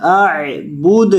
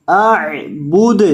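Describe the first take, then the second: No difference in how they are said.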